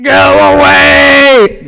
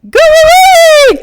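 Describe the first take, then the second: First: It is said in a guttural, throaty voice. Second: It is said in a lighter, less throaty voice.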